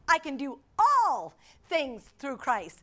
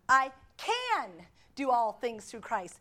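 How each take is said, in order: First: The stress falls on the word "all". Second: The stress falls on the word "can".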